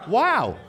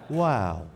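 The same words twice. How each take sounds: First: It is said with medium excitement. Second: It is said with mild excitement.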